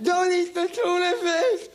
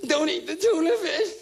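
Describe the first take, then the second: First: Even higher, slower, wailing plea; whiny activist. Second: High, slow, whining activist voice; mock a weepy animal lover; whiny activist. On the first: Retold or imitated. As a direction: drag out the pleading like a sob. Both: Mocking an animal rights activist.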